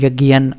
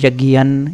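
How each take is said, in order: First: The word ends with an n sound. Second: The word ends with an n sound.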